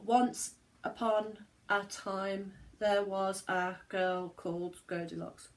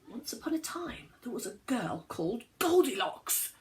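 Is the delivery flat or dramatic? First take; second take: flat; dramatic. First: It is said flatly, without changes in loudness. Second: It is said dramatically, with louds and softs.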